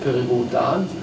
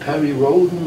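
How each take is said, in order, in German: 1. Der Name wird auf Deutsch ausgesprochen. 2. Der Name wird auf Englisch ausgesprochen. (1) "ich habe es deutsch ausgesprochen" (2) "hat man immer das Englische ausgesprochen"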